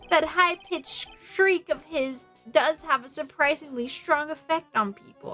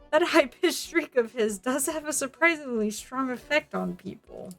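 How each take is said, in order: First: It is said in the speaker's own voice. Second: It is said in a put-on character voice.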